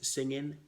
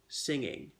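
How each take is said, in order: First: The ending is clipped to an N sound. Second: The ending is a smooth, full NG sound. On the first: The speaker calls it wrong. "circumcise it as singing" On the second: The speaker calls it right. "So pronounce it properly"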